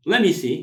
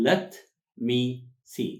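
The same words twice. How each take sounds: First: "Let me see" run together, t dropped; linked words. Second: "let me see" with a pause after each word; as written. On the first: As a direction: say "Let me see" quickly as "lemme see", high and loud. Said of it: "ክልተ ቃል ጥዕም". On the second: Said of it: "ኣብ ጽሑፍ ከም ትሪእዎ ግን". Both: Shown as a demonstration.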